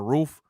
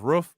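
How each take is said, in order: First: It is said with the standard pronunciation. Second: It is said with the Ohio pronunciation. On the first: The speaker is not from Ohio. "instead of saying roof" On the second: The speaker is from Ohio. "If a motherfucker says roof"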